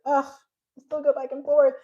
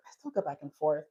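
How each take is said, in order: First: Groaned, higher-pitched self-complaint; exasperated. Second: Lower, softer aside; low admission. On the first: Speaker owning up to her wavering, exasperated. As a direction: lift it in frustration at yourself. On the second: Speaker admitting her own wavering, quietly. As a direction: drop it to a quiet confession. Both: Real, not acted.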